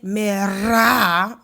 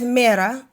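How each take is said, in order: First: The R is rolled and stretched. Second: The R is a soft single tap. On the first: The speaker calls it wrong. "you wouldn't say mira" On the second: The speaker calls it right. "mira would be really soft"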